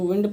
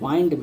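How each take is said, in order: First: The vowel is a short 'ih' sound. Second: The vowel is a long 'eye' sound. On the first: "वैसे तो विंड पढ़ते हैं" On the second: "इसे वाइंड भी वो पढ़ा जाता है"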